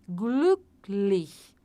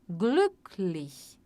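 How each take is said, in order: The two takes are said the same way.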